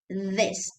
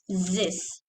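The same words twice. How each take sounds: First: The first sound is a voiced d-like sound. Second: The first sound is a buzzing z sound. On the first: The speaker calls it right. "Say this with a dal" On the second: The speaker calls it wrong. "Don't say this"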